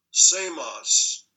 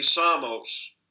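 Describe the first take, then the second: First: Said in the usual way. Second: Samos with an open Greek ah, SAH-mos; Greek pronunciation. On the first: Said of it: "or closer to Greek would be". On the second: Shown as a demonstration. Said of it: "closer to Greek would be".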